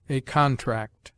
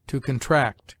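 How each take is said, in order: First: "contract" stressed CON-tract, weight on the first syllable; as a noun, hit the start of "contract". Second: "contract" stressed con-TRACT, weight on the last syllable; as a verb, lean on the end of "contract"; verb stress on the second syllable. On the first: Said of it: "the noun on the former syllable". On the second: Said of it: "the verb has commonly the accent on the latter". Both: Shown as a demonstration.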